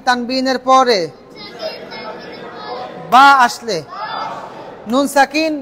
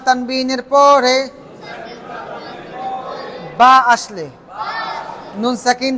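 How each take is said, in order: Both takes have the same delivery.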